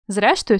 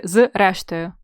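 First: Said in the usual way. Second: "з рештою" with з split off from рештою; said as two words. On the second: Shown as a demonstration. Teacher asking together or apart, "з рештою" split. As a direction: separate the з in "з рештою". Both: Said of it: "разом чи окремо".

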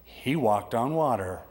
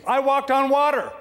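First: Slow, weighty statement; he walked on water, said slow and firm; slow emphatic. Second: High, loud proud boast; triumphant shout of a proud fisherman. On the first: Shown as a demonstration. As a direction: let each word land slowly. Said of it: "just remember". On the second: Acted. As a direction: crow it out to the critics. Peter boasting against critics.

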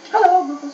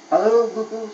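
First: High, loud, bright-eyed hello; cheerful high loud greeting. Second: Said in the usual way. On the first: A narrator's reading. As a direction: greet him all sunny and eager. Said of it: "in a very cheerful voice". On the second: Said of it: "said Crookie".

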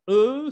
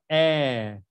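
First: E as a rounded "euh"; plain French E. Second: E as a long open "è". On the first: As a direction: say E with rounded lips, like "eu". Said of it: "ya no se va a pronunciar E". (E cerrada y redondeada, "eu") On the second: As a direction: stretch E into an open, unrounded "èèè". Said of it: "se va a pronunciar E". (E abierta y alargada, "è") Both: Shown as a demonstration.

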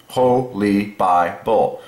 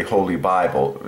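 First: Holy Bible drawn out slowly, each syllable apart. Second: Said in the usual way. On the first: Shown as a demonstration. Explaining the word to viewers, slow syllable by syllable. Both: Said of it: "Okay, two syllables".

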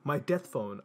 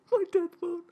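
First: Said in the usual way. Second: Very high, louder mock squeal; squealed exclamation. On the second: Reader retaking the hero's exclamation, absurdly high squeal.

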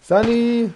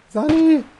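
First: Man down shout. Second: Even higher desperate yell for medic; man down shout. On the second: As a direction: scream the name, very high and loud. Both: Real, not acted. Wounded player calling for medic.

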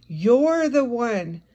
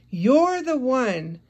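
Both takes have the same delivery.

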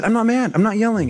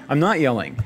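First: High-pitched, mock-indignant protest; intense denial. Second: Said in the usual way. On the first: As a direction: insist on it, overheated while denying it. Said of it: "my voice just gets an intense quality". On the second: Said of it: "Kay says that I'm yelling at her".

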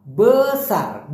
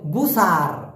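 First: "বেসার" slowly, schwa-like e then sar; correct pronunciation. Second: "বুসার" with an u sound in the first syllable; wrong pronunciation. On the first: Teacher modelling the correct slow "বেসার" for learners. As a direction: draw out "বেসার" carefully, be-sar. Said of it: "মূলত উচ্চারণটা হবে বেসার". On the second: Teacher showing learners the mistaken "বুসার" sound. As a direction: say "বুসার" the common wrong way, u then sar. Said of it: "বুসার না". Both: Shown as a demonstration.

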